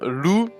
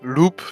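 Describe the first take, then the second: First: The word ends on the vowel, no p. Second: The word ends with a p sound. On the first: The speaker calls it right. "So Lou means wolf in French" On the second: The speaker calls it wrong. "not Loop, as uh, I saw so many people"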